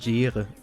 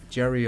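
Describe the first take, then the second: First: The name is said with German pronunciation. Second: The name is said with English pronunciation.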